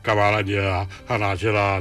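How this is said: The voice resonates low in the chest.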